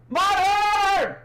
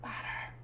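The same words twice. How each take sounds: First: Loud excited shout. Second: Suddenly hushed whisper. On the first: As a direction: call it out full voice. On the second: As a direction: drop to a whisper. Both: Real, not acted. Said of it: "Sorry, I'm being loud".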